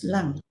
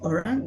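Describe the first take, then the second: First: It starts with an L sound in one syllable. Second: It starts with a vowel and keeps two syllables. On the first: This is the Hokkien-adapted form. "the Chinese says lang" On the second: This is the standard Malay form. "instead of saying orang"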